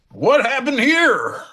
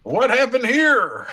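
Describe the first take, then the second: First: High, slow, laughing Kid impression; Kid's voice. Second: High, slow Kid impression; host asks to hear it, high and slow; Kid's voice on request. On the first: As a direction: stretch it high and slow, cracking up. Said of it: "Kid comes around the corner and goes". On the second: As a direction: redo it high and drawn out for the listener. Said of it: "How did he say it?".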